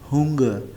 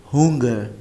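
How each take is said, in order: The two takes are said the same way.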